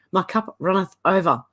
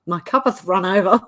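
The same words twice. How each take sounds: First: "runneth" said carefully in place; corrected wording. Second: "cuppeth" with the -eth moved onto cup; tongue-slip repeat. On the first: Put the -eth ending on "runneth". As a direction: reader corrects her slip in the psalm, carefully saying "runneth". Correcting her misread Bible verse. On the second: Reader repeats her psalm slip for laughs, amused "cuppeth". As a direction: play up the slip "cuppeth run". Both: Real, not acted.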